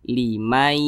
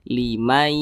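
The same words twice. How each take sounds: The two takes are said the same way.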